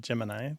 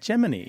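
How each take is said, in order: First: It is said unlike the word Jiminy. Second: It is said like the word Jiminy. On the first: This is the everyday pronunciation. "That's what you say" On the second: This is the space program insiders' pronunciation. "in the space program, they pronounce it Gemini"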